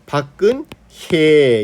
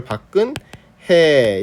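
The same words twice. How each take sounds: First: 박근혜 with a clearly glided hye; newsreader-careful bak-geun-hye in 박근혜; careful diphthong. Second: 박근혜 ending in plain he, no y-glide; unglided final vowel in 박근혜; simplified vowel. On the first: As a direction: stretch the y-glide in the last syllable of 박근혜. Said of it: "정확하게 발음을 하려고". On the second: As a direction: say 박근혜 as bak-geun-he. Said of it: "이렇게 해도". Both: Shown as a demonstration.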